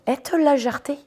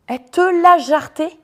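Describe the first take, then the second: First: Said in the usual way. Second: High, loud, slowed emphatic retelling; excited. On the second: Real, not acted. Vlogger proudly telling how her friend threw him out. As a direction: relish it, she kicked him out.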